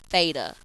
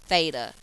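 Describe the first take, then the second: Both takes have the same delivery.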